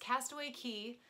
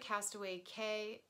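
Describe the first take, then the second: First: The last word is pronounced like 'key'. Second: The last word is not pronounced like 'key'. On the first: The speaker calls it right. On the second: The speaker calls it wrong. "I always say that wrong"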